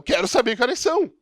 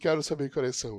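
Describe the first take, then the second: First: It is said with strong emotion. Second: It is said flatly, without emotion.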